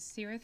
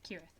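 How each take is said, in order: First: The word begins with a soft S sound. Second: The word begins with a hard K sound. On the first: The speaker calls it wrong. "you refer to a place as Cirith something" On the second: The speaker calls it right. "Elvish uses the hard C for everything"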